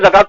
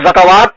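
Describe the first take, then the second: First: The written waw is silent, giving two syllables. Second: The written waw is sounded as an extra syllable. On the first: The speaker calls it right. "कि ज़कात पढ़ते हो?" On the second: The speaker calls it wrong. "उसको ज़कावात पढ़ते हो"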